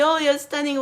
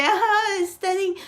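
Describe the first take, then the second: First: Mildly gushing, mocking fake praise; mock fake praise for a commenter; fake compliment. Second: High-pitched mock gushing; mocking fake commenters with a high squeal; fake gushing compliment. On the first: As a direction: toss off the compliment with a hint of mockery. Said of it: "Oh, that's fucking fake". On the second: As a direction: squeal the fake praise, overdoing it. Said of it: "putting yourself on that situation that you're going to be lying".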